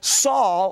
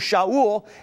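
First: The name is said the usual English way. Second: The name is said the Hebrew way. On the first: "a Hebrew name that we call Saul" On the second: "or it's pronounced in Hebrew"

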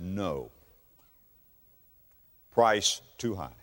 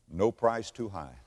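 First: There is a pause after "no". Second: It runs on without a pause after "no".

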